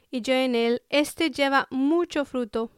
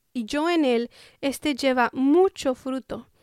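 No difference in how they are said.

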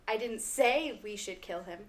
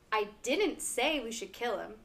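First: The stress is on "say". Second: The stress is on "didn't".

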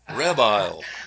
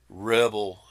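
First: The second syllable sounds like 'bile'. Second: The second syllable sounds like 'bel'. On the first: "She calls him Rebile" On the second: "when I say, call Rebel"

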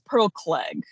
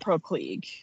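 First: The surname's vowel rhymes with 'egg'. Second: The surname's vowel rhymes with 'league'. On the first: The speaker calls it right. "I think it's Pearl Clegg" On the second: The speaker calls it wrong. "not Pearl Klieg"

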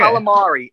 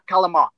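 First: The final vowel is clearly pronounced. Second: The final vowel is dropped. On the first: The speaker calls it right. "Just say every letter" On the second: The speaker calls it wrong. "It's not calamar"

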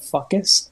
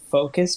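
First: The first syllable sounds like 'fuck'. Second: The first syllable sounds like 'foe'. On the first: The speaker calls it wrong. "but he said fuckus" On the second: The speaker calls it right. "he was trying to say focus"

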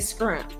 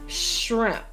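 First: The word begins with an skr sound. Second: The word begins with an shr sound. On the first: This imitates the other person's regional pronunciation. "I'm gonna say it your way. So you say scrimp" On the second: This is the speaker's own pronunciation. "now say shrimp"

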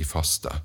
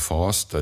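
First: The word is said briskly, without drawing it out. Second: The word sounds slow and drawn out. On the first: The speaker calls it right. "på godt norsk så synes det er riktigst å si faste" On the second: The speaker calls it wrong. "det høres for meg litt sånn tregt ut"

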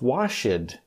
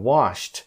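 First: The word is said with two syllables. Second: The word is one syllable ending in t. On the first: The speaker calls it wrong. "I hear from a lot of my students as washed, which is incorrect" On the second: The speaker calls it right. "It should be one single syllable and it should be a T sound"

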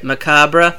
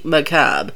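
First: The word ends with a pronounced R syllable. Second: The word ends without a separate R syllable. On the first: The speaker calls it wrong. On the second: The speaker calls it right.

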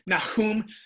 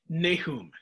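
First: The h is a raspy guttural throat sound. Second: The h is a plain, soft English h.

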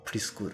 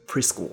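First: It is said with Japanese katakana pronunciation. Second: It is said with English-like pronunciation.

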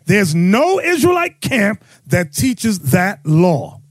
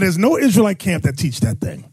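First: It is said in a proud, emphatic way. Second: It is said in a plain, ordinary way.

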